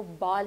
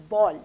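First: बाल with long open "aa" vowel; wrong pronunciation. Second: बॉल with rounded o-like vowel; correct pronunciation. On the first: Teacher showing what to avoid, wrong pronunciation. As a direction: say बाल unrounded, like "baal". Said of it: "आपने इसको बाल नहीं". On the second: Teacher correcting to an O sound, right pronunciation. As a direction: round the lips for बॉल, like "bawl". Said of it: "थोड़ी ओ की sound लग रही". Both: Shown as a demonstration.

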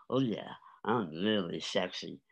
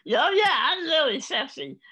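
First: Said in the usual way. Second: Very high, loud comic strut; hammed-up sexy boast. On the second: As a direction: belt it out like a strutting show-off. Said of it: "a seventy-year-old man strutting across the stage saying".

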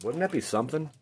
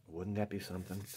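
First: Said in the usual way. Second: Softer echo of Wouldn't that be something; Wouldn't that be something said again under the breath; quiet repeat. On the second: Real, not acted. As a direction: muse it again, much softer.

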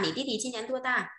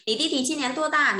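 First: Said in the usual way. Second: Higher, louder first read of "Nǐ ti ti chi nian duo da?"; "Nǐ ti ti chi nian duo da?" sung out high with a falling "da"; emphatic model question. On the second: Shown as a demonstration. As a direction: lift the whole question up as a teacher's model. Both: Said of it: "repeated model question".

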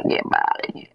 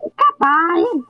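First: Slow, giggling gloat; laughing taunt. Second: Drawn-out taunt. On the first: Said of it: "repeats the taunt laughing". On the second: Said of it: "repeats the taunt drawn out". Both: Pretend.

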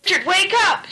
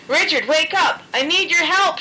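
First: Higher urgent shout. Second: Higher shout, pressing. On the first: Rapid T waking sleeping Richard, urgent shout. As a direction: shout to wake him. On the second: Rapid T shouting again to wake Richard. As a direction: yell for help. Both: A narrator's reading. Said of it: "shouted Rapid T Rabbit".

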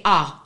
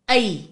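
First: "a" as an open ah, lower pitch; Khoi letter sound. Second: "ai" as the English name of A; English letter sound. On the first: Teacher contrasts Khoi with English, demonstrating Khoi "a". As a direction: say "a" low, as ah rather than ay. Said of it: "in Khoi you say". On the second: Teacher contrasts English with Khoi, demonstrating English "ai". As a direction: say "ai" to rhyme with day. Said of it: "in English you say". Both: Shown as a demonstration.

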